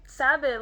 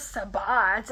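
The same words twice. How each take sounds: First: Sabat with stress on the first syllable; correct pronunciation. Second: Sabat with stress on a long second syllable; wrong pronunciation. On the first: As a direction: say Sabat as "SAB-it". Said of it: "like, the way he says it". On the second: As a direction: say Sabat as "suh-BAHT". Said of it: "Everyone always says". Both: Shown as a demonstration.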